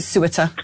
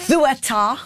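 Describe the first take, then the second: First: Ceuta said SOO-it-uh; Ceuta with S start and weak final uh; anglicised pronunciation. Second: Ceuta said THOO-eh-TAH, higher; Ceuta with lisped TH and full final TAH; Spanish pronunciation. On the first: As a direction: say Ceuta plainly the English way, with an S. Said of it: "I'm just call it". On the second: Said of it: "is how you say it in Spanish". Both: Shown as a demonstration.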